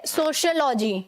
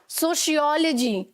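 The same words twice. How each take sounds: First: The stress is not on the 'ol' syllable. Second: The stress is on the 'ol' syllable. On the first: "कुछ लोग इस word को कैसे बोलेंगे?" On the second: "ओ पर stress था"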